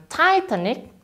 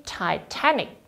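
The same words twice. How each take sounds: First: Titanic stressed on TI; wrong stress. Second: Titanic slowly, softer, with TAN stressed; slow model Titanic, hit TAN. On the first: Teacher showing wrong Titanic stress to students. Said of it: "Bukan Titanic". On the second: Teacher giving correct Titanic to students. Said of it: "tekankan di T-nya". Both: Shown as a demonstration.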